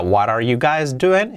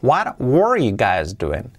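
First: Slow model with "are" linked to "what"; "what are" run together as "wadar"; present tense model. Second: Slow model leaning on "were"; past tense model. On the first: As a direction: say "What are you guys doing" slowly, linked. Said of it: "En presente sería". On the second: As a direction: stress "were" in "What were you guys doing". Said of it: "En pasado". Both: Shown as a demonstration.

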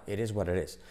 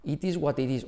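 First: Lower, softer "it is what it is" as "eresuarerés"; self-corrected, linked. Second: "It is what it is" with hard Ts, Spanish accent; a learner reading "It is what it is" aloud in Spanish-accented English. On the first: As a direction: catch yourself and say "it is what it is" with tapped Ts. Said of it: "te acostumbras a corregirte". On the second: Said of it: "A que si tú dices". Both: Shown as a demonstration.

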